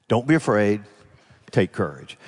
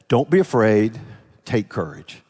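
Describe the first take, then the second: No difference in how they are said.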